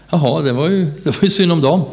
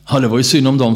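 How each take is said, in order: First: Higher, rising, offhand "det var ju synd om dem"; indifferent shrug. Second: Said in the usual way. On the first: Retold or imitated. Tired missionary brushing off the unreached villagers, indifferently. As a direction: toss it off as if it hardly matters. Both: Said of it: "Och det blev inte mer än så".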